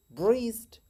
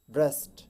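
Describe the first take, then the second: First: ब्रेस्ट with a long ee vowel; wrong take, ब्रेस्ट said as breest; wrong breast. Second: ब्रेस्ट with a light short e; right breast. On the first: Teacher demonstrates the wrong ब्रेस्ट. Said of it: "wrong pronunciation इस तरह है". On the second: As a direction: correct ब्रेस्ट, vowel kept light. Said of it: "ई को थोड़ा हल्का pronounce करेंगे". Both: Shown as a demonstration.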